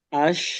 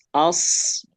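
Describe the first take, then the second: First: The hiss is spread into an sh sound. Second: The hiss is a sharp s at the tongue tip. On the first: The speaker calls it wrong. "Jangan disebar. Jangan jadi ash ash ya, beda nih" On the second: The speaker calls it right. "Pastikan pakai ujung lidah"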